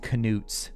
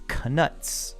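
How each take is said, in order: First: The vowel sounds like the one in 'newt'. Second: The vowel sounds like the one in 'nut'. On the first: This is the original pronunciation. "It was originally pronounced Canutes" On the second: This is the currently official pronunciation. "now they say the correct pronunciation is Canuts"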